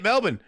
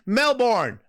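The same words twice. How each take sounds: First: It is said in an Australian accent. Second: It is said in an American accent. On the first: "But if you're Australian" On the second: "If you're American"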